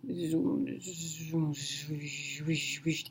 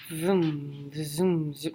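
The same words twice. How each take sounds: First: Much softer, breathy zoom, zoom, repeated; machine whooshing noise. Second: Soft vroom and zoom, the wrong sound; hushed first try at the machine's whoosh; wrong machine noise. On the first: Corrected imitation of the scanner's whooshing, very soft. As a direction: hush the whoosh down to almost nothing. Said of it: "Yeah, that's what it does". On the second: Describing the scanner, she tries its noise and gets it wrong, soft. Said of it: "No, that's not right". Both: Shown as a demonstration.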